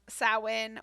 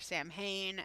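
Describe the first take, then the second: First: It is said the non-American way. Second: It is said the American way.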